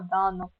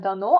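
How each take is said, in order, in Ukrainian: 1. Наголос на першому складі. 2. Наголос на другому складі. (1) "Далі йдуть наголоси на перший склад" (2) "не дано"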